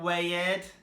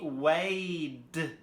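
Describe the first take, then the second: First: The ending is not pronounced as a D sound. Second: The ending is pronounced as a D sound. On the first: The speaker calls it wrong. "not weighed" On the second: The speaker calls it right. "weighed with the D sound"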